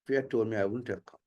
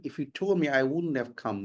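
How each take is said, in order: First: Neutral-accented English, evenly delivered; neutralized accent. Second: Put-on American English accent. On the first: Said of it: "So that is neutralized accent". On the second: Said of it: "So if you put it in American". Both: Shown as a demonstration.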